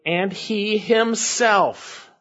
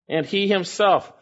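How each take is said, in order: First: Slow, weighty stress on himself; slow literal reading. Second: Said in the usual way. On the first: Shown as a demonstration. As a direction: draw out each word, landing on himself. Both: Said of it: "It's literally".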